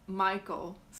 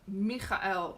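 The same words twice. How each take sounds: First: The name is said the everyday English way. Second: The name is said with an unusual, non-English sound. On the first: The speaker calls it wrong. "and not Michael" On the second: The speaker calls it right. "his name is Michael"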